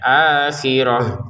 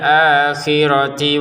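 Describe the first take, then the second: First: The word ends with an h sound. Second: The word ends with a ti sound. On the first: The reading stops after this word. "Untuk taknya ini kita baca ha ya, ... Karena kita berhenti ya" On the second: The reading continues into the next word. "Kalau kita menyambungkan ke berikutnya maka dia menjadi huruf tak lagi"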